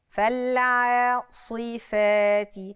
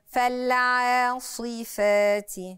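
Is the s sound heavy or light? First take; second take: heavy; heavy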